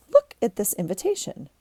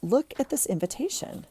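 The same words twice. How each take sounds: First: Said in the usual way. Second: Excited. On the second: Real, not acted. Gushing over the invitation.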